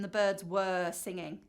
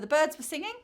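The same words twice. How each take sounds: First: The word 'were' is fully pronounced. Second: The word 'were' is reduced and quick. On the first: "rather than" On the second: "Often it's the weak forms"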